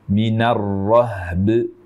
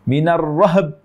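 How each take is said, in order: First: The b is bounced, the h is not. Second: The h is bounced, the b is not. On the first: The speaker calls it right. "berikan hak huruf ba dengan sempurna" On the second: The speaker calls it wrong. "itu haknya yang qalqalah, bukan ba-nya yang qalqalah"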